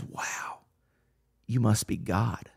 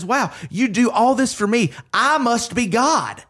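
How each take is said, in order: First: Hushed, awed dog voice, nearly whispered; a dog in quiet wonder at its owner. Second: A self-satisfied cat taking it all for granted; smug cat. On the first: The dog looking up at its owner, in an awed hush. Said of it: "and that dog looks at you and says". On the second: The cat being fed and cared for, smugly higher. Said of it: "the cat looks at you and says". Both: Retold or imitated.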